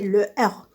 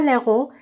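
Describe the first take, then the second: First: The article is said in full, without linking. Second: The article is elided and linked to the noun. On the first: The speaker calls it right. "c'est le héros" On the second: The speaker calls it wrong. "C'est pas l'héros"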